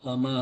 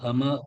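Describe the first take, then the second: The two takes are said the same way.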